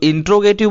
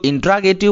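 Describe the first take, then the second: First: It begins with 'intro', missing a syllable. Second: It begins with 'intra', missing a syllable. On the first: "कुछ लोग इंट्रोगेटिव बोलते हैं" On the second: "कुछ लोग इंट्रागेटिव बोलते हैं"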